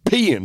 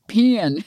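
First: High, drawn-out peeing; dad's voice. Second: Stretched high peeing; dad's voice. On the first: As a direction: stretch it over eight syllables. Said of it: "like, eight syllables". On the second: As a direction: draw it out like her dad. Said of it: "I can hear your dad's voice". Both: Retold or imitated.

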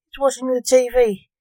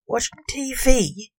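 First: Said in the usual way. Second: Slow doubtful echo of the words; skeptical. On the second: A narrator's reading. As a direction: repeat it like you don't believe it. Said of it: "Blake said skeptically".

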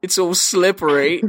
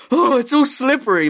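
First: Film quote in a raised, put-on voice; mock movie-character delivery; quoted film line. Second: High, loud gasp of pretend horror; hammed-up shock with a gasped start; mock horrified. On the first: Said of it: "and he says". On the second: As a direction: play horrified, pitched way up. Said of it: "look horrified and be like".

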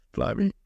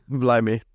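First: Higher, cracked exclamation; voice break. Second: Said in the usual way. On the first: Real, not acted. Vlogger caught out mid-exclamation, voice breaking. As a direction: let the voice break on the word. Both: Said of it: "Voice break".

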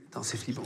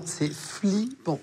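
First: Low, soft "c'est flippant"; quiet dismay. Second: "flippant" stretched slowly, syllable by syllable; drawn-out FLIPPANT. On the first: Host taking in the copied badge, "c'est flippant" said low and quiet. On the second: Host driving home the scare, "flippant" slow and stretched out. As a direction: draw out "flippant" for emphasis. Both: Real, not acted.

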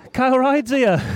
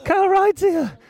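First: Raised, eager call that Kyle Ryde's here; excited spotting. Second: Much higher and louder: Kyle Ryde's here; thrilled repeat. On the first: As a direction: call it out like a fan who has just spotted a star. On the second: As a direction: squeal the name the second time, beside yourself. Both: Real, not acted.

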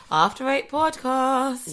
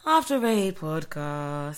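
First: Drawn-out, high-pitched podcast name; high intro jingle. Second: Slow, drawn-out low delivery of the show name; going low. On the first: Host rehearsing the podcast intro with co-host, high and drawn out. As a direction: send the show name up high. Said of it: "You're meant to go high". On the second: Co-host rehearsing the intro the wrong way, low and slow. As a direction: take the podcast name down low, stretching it. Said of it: "You are going low". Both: Shown as a demonstration.

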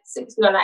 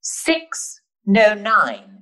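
First: Flat, unbothered "six no nine"; cool dismissive "six no nine"; deadpan dismissal. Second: Slow, careful "Six no nine"; learner's hesitant "Six no nine"; wrong try. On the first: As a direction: brush it off, no smile, "six no nine". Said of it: "You have to be like". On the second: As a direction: spell out "Six no nine" word by word. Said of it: "you don't say it correctly". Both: Shown as a demonstration.

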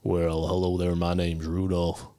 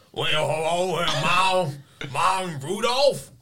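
First: A tough southern reindeer says hello; tough southern Rudolph. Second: Higher, louder, slow hammed-up southern voice; bad southern Rudolph impression. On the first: Shown as a demonstration. A Southern accent, for the players. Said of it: "give me the accent again". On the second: A player botches a Southern accent, overblown. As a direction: play a failed roll, botched reindeer accent. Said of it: "what you think a two would be".

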